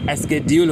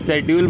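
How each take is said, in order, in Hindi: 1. यह शब्द sk ध्वनि से शुरू होता है। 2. यह शब्द sh ध्वनि से शुरू होता है। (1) "जबकि एस्केड्यूल होता है" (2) "मैं शेड्यूल बोलता था"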